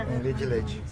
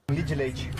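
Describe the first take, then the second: First: It is said fast in a mineiro accent, run together. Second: It is said fast in a mineiro accent, run together.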